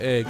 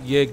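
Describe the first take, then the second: First: The syllable begins with a plain vowel. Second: The syllable begins with a y sound. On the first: The speaker calls it right. "you pronounce it egg" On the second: The speaker calls it wrong. "you don't you don't pronounce it yig"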